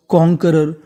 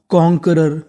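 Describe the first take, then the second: No difference in how they are said.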